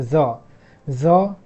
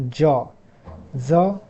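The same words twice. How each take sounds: The two takes are said the same way.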